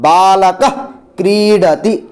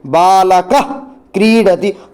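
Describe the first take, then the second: First: The final h sound is half, made at the throat. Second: The same.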